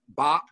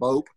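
First: The vowel is short, rhyming with hop. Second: The vowel is long, rhyming with hope. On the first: This is how the spelling suggests it. "her new last name is Bop, B-O-P-P" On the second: This is how its owner insists it be said. "she makes her husband pronounce it Bope"

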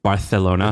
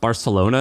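First: The 'c' sounds like 'th', a lisp. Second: The 'c' sounds like a plain 's'. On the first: This is how people in Barcelona say it. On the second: This is the usual pronunciation.

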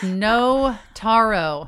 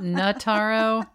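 First: The first syllable sounds like the word 'no'. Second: The first syllable does not sound like 'no'. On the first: The speaker calls it right. "just say no" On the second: The speaker calls it wrong. "It's not Notaro"

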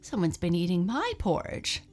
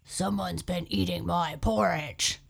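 First: It is said with a shocked gasp. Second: It is said in a deep growl.

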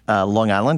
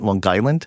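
First: It is said in a neutral, general accent. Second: It is said in a strong local New York accent.

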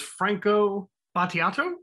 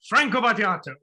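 First: The name is said softly and without force. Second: The name is said loudly and with force.

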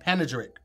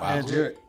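First: The word is said with all its syllables. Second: The word is said with one syllable missing. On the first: The speaker calls it right. "That's correct" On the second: The speaker calls it wrong. "You're leaving out a syllable"

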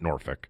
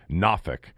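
First: It is said with a non-local pronunciation. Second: It is said with the local Virginia pronunciation. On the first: The speaker calls it wrong. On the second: The speaker calls it right.

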